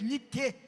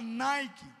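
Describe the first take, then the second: First: It is said with a Greek pronunciation. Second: It is said with an American English pronunciation. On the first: "a pronúncia da palavra grega é Nike" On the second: "americanizado, pronunciado dessa maneira"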